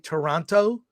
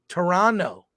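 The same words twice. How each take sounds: First: The second T is pronounced. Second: The second T is silent. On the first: The speaker calls it wrong. "Whenever I hear people say Toronto, I just feel like you've never been to Canada" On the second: The speaker calls it right. "the correct pronunciation is the second T is silent"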